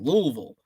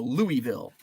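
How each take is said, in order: First: The name is squeezed with fewer, reduced vowels. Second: The name is said with full, distinct vowels. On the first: This is how the locals say it. The speaker calls it right. "the less vowels you use is the more correct pronunciation" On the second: This is how an outsider from the North says it. The speaker calls it wrong. "I'm a Yankee, so I go Louisville"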